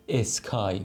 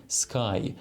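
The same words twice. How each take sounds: First: اسکای with a short "e" before the s; added initial vowel. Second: سکای starting straight on the s; no initial vowel. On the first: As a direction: put an "e" in front, es-kai, for اسکای. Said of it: "یعنی شما نمیگید". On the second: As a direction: begin سکای with a clean "sk" cluster. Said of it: "میگید". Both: Shown as a demonstration.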